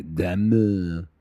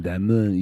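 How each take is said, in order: First: Diamond in bad French, D almost dropped; French accent, softened D. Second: Diamond in rough French, as "dah-muh"; attempted French accent. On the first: Showing her the D has to drop, French accent. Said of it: "You would have to drop the D". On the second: Trying out a French version of her name, French accent. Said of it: "with the French accent". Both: Shown as a demonstration.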